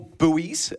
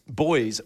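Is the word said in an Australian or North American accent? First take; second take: North American; Australian. First: It is said with a North American pronunciation. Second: It is said with an Australian pronunciation.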